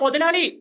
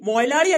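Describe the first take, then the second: First: The second consonant is a 'th' sound. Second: The second consonant is a 'y' sound. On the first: The speaker calls it right. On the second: The speaker calls it wrong. "മൊയലാളി അല്ല"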